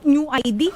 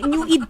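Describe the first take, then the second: First: The second part is spelled out as two letters. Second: The second part is said as a single word. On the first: The speaker calls it wrong. "Akala ko nga nung New I D" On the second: The speaker calls it right. "No, hindi. New Eid po yan"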